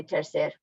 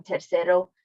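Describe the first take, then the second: First: TERCER cut off after the R; final O dropped. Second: TERCERO with the final O kept; full final O. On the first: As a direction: say TERCER with no O at the end. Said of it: "you cut the O off". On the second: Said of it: "you keep the O". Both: Shown as a demonstration.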